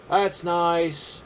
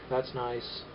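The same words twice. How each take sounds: First: Mock-pleased sarcasm; sarcastic. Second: Dry, soft sarcasm; sarcastic. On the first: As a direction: pretend to admire it. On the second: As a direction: say it flatly, not meaning it. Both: Shown as a demonstration. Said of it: "Yeah, I'm being sarcastic".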